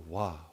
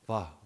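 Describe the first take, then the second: First: The first sound is a clear W. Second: The first sound is close to a V. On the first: "but sometimes it's more Wah" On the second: "like almost like a V"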